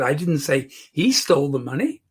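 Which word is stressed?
he. The word "he" carries the emphasis. Someone else took it. "She stole the money"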